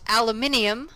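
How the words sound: The word is said with five syllables. This is how it is said in Europe. "that is a European pronunciation"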